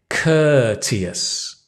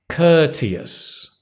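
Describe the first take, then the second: No difference in how they are said.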